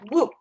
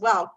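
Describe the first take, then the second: First: The vowel rhymes with rook. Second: The vowel does not rhyme with rook. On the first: The speaker calls it right. "it says it rhymes with rook" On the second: The speaker calls it wrong. "I always thought it was Wouk"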